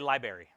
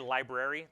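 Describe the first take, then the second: First: The R after the B is dropped. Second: The R after the B is pronounced. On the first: The speaker calls it wrong. "They don't get the R right after the B" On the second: The speaker calls it right. "That's the appropriate way to say library"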